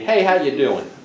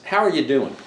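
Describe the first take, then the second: First: It sounds like a quick, casual greeting. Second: It sounds like a sincere, earnest question.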